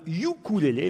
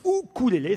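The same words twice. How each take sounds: First: The word begins with a 'yoo' sound. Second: The word begins with an 'oo' sound. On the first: The speaker calls it wrong. "Il ne faut pas prononcer le i, pas de ukulélé" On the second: The speaker calls it right. "mais ukulélé. C'est la prononciation hawaïenne qui est plus chic"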